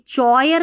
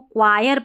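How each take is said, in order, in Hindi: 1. यह शब्द 'ch' ध्वनि से शुरू होता है। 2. यह शब्द 'kw' ध्वनि से शुरू होता है। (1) "चॉयर नहीं पढ़ना है" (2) "इसको क्वायर पढ़ना है"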